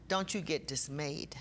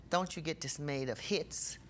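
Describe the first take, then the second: First: Whisper. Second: Said in the usual way. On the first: Real, not acted. Preacher comforting grieving congregation.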